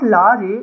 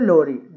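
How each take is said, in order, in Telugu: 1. మొదటి అచ్చు పొడవైన తెరిచిన 'ah'. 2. మొదటి అచ్చు గుండ్రని 'o' ధ్వని. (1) "it's not లారీ" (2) "it's a లోరీ"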